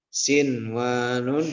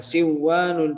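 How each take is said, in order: First: The n sound is pronounced clearly before w. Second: The n sound is merged into the w. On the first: The speaker calls it right. "dibacanya sinwanun" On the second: The speaker calls it wrong. "bukan siwanun"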